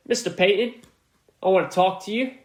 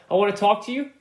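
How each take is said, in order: First: A half-hearted British accent, barely put on; British accent attempt. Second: Said in the usual way. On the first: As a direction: toss off a lightly faked British accent. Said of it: "tried to do a British or whatever accent". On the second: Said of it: "British or whatever accent".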